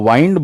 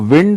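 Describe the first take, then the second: First: The vowel is an 'eye' sound. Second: The vowel is a short 'i' sound. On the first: It is the verb meaning to end or turn. "अगर आप इसको वाइंड बोलते हो" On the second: It is the noun meaning air. "विंड अगर आप बोलते हो इसको"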